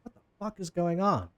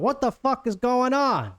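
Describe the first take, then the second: First: A touch of disbelief, not shouted; mildly baffled onlookers. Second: Much higher, louder, drawn-out New Jersey yell; shouted demand. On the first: Two people on the walkway looking down, mildly baffled. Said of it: "also looking down. It's like". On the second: Boss woman shouts out at her crew, irate yell. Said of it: "So she shouts out". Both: Acted.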